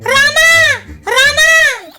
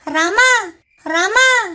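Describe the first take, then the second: First: The name is shouted very loudly. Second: The name is called softly and gently.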